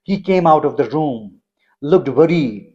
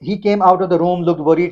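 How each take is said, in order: First: There is a pause after 'room'. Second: The words run on without a pause. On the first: The speaker calls it right. "जहां जहां comma है मैंने pause दिया।" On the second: The speaker calls it wrong. "इसको आप ऐसे नहीं पढ़ेंगे"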